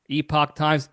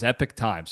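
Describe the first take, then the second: First: The first word ends with an 'ock' sound. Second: The first word ends with an 'ick' sound. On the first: The speaker calls it wrong. "Epoch sounds like I'm really butchering it" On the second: The speaker calls it right. "I'm going to say Epic because it sounds a little bit better"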